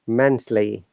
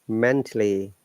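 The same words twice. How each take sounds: No difference in how they are said.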